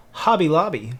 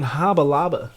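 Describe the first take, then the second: First: Said in the usual way. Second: "Hobby Lobby" with both endings turned to "uh"; playful slang pronunciation. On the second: Pretend. Streamer jokingly nicknames the shop for chat, "Hobby Lobby" said as "Hobba Lobba".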